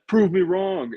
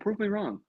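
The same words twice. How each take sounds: First: It is said in a cocky, challenging tone. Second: It is said in an open, curious tone. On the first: The speaker dares others to disprove a claim. The speaker calls it wrong. "is like the douchebag" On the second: The speaker invites others to test a claim. The speaker calls it right. "but then science is like, "Oh"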